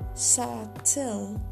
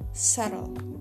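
First: The word is pronounced as it is spelled. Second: The word has its usual native pronunciation. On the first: "spelling pronunciations are common" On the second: "for subtle"

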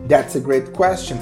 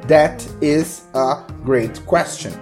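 First: The words run together like one word. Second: The words are said apart, without linking. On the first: "Notem que parece que é uma palavra só" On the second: "Ele não fala that is a great question"

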